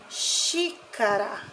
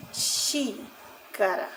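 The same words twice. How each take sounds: First: "xícara" slow, with "xí" stretched; stress on first syllable. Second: "xícara" very slow and soft, pausing after "xí"; syllable split. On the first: Teacher giving a proparoxytone example, slow first-syllable stress. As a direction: hold "xí", then finish "xícara". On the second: Teacher repeating the example for children, slow split word. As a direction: softly split "xícara" into "xí" and "cara". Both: Shown as a demonstration. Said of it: "estão na antepenúltima".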